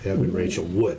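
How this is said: The stress is on Wood.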